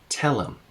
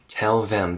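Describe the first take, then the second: First: The 'th' is dropped, giving 'tell 'em'. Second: The 'th' in 'them' is fully pronounced. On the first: "Tell them becomes tell 'em" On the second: "It's incredibly common to take out the T H for them"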